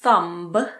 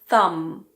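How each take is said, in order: First: The word ends with an audible b sound. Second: The word ends with an m sound. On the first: The speaker calls it wrong. "So this is not a thumb" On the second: The speaker calls it right. "it's a thumb. Pretend that the B isn't there"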